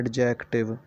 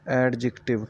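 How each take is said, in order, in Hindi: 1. इसे सीखने वाले के स्थानीय उच्चारण में कहा गया है। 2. इसे वैसे ही कहा गया है जैसे अंग्रेज़ी के मूल वक्ता कहते हैं। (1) "गलत तरीके से करते हैं और वो कहते हैं" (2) "अंग्रेज़ इसको कैसे बोलते हैं"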